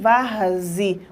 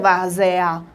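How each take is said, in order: First: The vowel before the final 'a' sounds like 'i'. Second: The vowel before the final 'a' sounds like 'e'. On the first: The speaker calls it right. "Nós pronunciamos varze. O E tem som de I" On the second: The speaker calls it wrong. "Ninguém pronuncia várzea"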